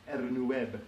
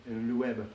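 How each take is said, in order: Both takes have the same delivery.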